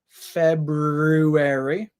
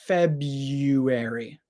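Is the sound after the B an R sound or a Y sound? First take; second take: R sound; Y sound. First: An R sound follows the B. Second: A Y sound follows the B. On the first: "You can pronounce that R after the B" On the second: "Instead of making the first R sound, we make a Y sound"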